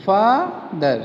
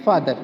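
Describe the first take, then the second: First: "father" split into two beats, fa, ther; syllable by syllable. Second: Said in the usual way. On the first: Shown as a demonstration. Teacher showing the two parts of father, syllable by syllable. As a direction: pause between "fa" and "ther" in "father". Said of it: "part जो एक बार में बोला जाता है". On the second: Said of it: "Now we are going to pronunciate".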